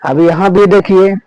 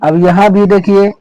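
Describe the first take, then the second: The two takes are said the same way.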